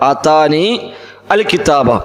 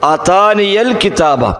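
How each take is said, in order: First: The word al is said separately, with its hamza. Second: The word al is joined on with a y-sound. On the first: This is how the words are written. "ആതാനി അൽ കിതാബ എന്നാണ്" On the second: This is how the words are recited. "ആ ഹംസ ഉച്ചരിക്കാതെ പോകും, പകരം യാ ഫതഹായി കൊണ്ട് ഉച്ചരിക്കും"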